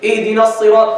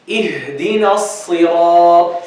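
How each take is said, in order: First: The h sound in ihdina is dropped. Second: The h sound in ihdina is clearly breathed. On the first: The speaker calls it wrong. "Not giving the ha, it's wrong" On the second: The speaker calls it right. "What should you say? Show the ha and give it its hams"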